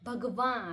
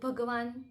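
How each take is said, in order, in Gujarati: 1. શબ્દ અનુનાસિક સ્વરથી અંત પામે છે. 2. શબ્દ પૂરા ન વ્યંજનથી અંત પામે છે. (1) "એનું ઉચ્ચારણ નાકમાંથી થવું જોઈએ" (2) "ભગવાન એ ખોટું છે"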